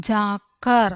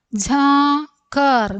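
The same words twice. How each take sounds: First: Said in the usual way. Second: Slow, higher, stretched syllables. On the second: Shown as a demonstration. Teacher introducing a new word to learners, syllable by syllable. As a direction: draw out each half of the word.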